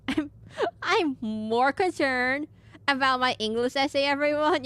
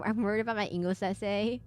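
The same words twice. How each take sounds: First: Slow, stretched, a little higher; mock-dramatic slow whine; drawn-out mock complaint. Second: Said in the usual way. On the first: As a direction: drag out the complaint for laughs. Joke line drawn out to chat.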